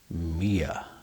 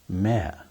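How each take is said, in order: First: The vowel sounds like the word ear. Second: The vowel sounds like the word air. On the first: "How do you pronounce that?" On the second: "some people may say mare"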